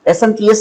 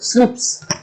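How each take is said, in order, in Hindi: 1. यह अक्षर-अक्षर बोला जाता है। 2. यह एक शब्द की तरह बोला जाता है: snips। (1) "एसएनपीएस नहीं बोलेंगे" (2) "बल्कि हम इसे बोलेंगे स्निप्स"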